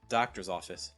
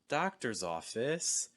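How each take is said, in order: First: The pitch falls at the end. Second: The pitch falls and then rises at the end. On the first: It sounds cold, formal and professional. "kind of like a falling intonation" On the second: It sounds friendlier and invites a question. "it just sounds a little bit friendlier when you have this fall rise"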